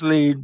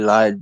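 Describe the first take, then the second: First: The vowel sounds like 'ee', as in lead. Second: The vowel sounds like 'eye', as in lied. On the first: The speaker calls it right. "I know it's lead" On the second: The speaker calls it wrong. "someone who doesn't speak Japanese would definitely say lied"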